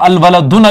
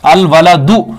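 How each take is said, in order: First: The word ends with an added n sound. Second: The word ends on a short u vowel. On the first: The speaker calls it wrong. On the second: The speaker calls it right.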